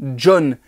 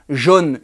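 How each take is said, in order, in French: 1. Le nom commence par un son 'dj'. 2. Le nom commence par un son 'zh' doux. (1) "comme s'il y avait un petit D avant" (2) "et non pas"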